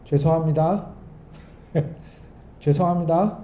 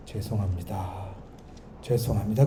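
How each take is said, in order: First: Flippant "죄송합니다" with a laugh and a lilting rise; insincere apology. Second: Soft, low, heartfelt "죄송합니다"; mean every word of "죄송합니다", quietly; sincere apology. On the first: Preacher showing a fake apology, laughing and careless. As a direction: toss off "죄송합니다" as if it's a joke. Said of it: "이러면 화해한 거예요, 안 한 거예요?". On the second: Preacher showing a truly sorry apology, soft and sincere. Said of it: "그러면 좋은데". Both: Shown as a demonstration.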